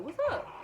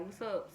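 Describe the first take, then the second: First: Rising, high "What's up?" with a lift at the end; high lilting "What's up?"; bright greeting. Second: Said in the usual way. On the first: Retold or imitated. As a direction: answer the FaceTime with a perky "What's up?". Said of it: "I was like". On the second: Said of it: "he was like".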